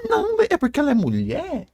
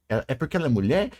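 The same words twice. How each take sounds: First: High-pitched mimicry of a complainer; mocking objection. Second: Said in the usual way. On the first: Throwing the fans' sexism excuse back at them, high mocking voice. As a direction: parrot it in a high mock voice.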